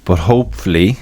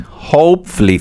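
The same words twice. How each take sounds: First: Said in the usual way. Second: Hopefully lifted high and stressed; emphatic hopefully. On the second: Shown as a demonstration. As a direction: lean hard on hopefully.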